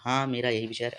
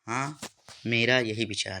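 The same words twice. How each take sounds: First: The words run on without any pause. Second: A short pause follows the first word. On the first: The speaker calls it wrong. "ऐसा नहीं दोस्तों, थोड़ा सा ठहराव होना चाहिए" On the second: The speaker calls it right. "हाँ के बाद कामा लगना चाहिए, यानी थोड़ा ठहराव होना चाहिए"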